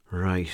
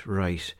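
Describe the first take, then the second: No difference in how they are said.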